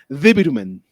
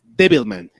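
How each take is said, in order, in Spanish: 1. Se dice con pronunciación japonesa. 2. Se dice con pronunciación inglesa. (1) "en japonés le pusieron Devilman" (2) "que es Devilman en inglés"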